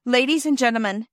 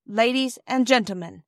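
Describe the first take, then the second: First: Nervous rush, a bit louder and higher; "Ladies and gentlemen" blurted out quickly. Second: Husky voice. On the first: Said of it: "he went on with a rush". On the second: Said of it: "he said in a rather husky voice". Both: A narrator's reading.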